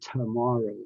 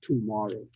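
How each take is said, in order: First: The first vowel is a reduced uh sound. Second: The first vowel is a full, clear vowel. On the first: The speaker calls it right. "the schwa sound" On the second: The speaker calls it wrong. "not tomorrow"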